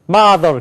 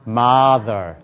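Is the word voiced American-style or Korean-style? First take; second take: Korean-style; American-style. First: It is voiced high in the throat, Korean-style. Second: It is voiced lower and deeper, American-style. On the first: The speaker calls it wrong. "그런 말이 없어요" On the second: The speaker calls it right. "뭐예요?"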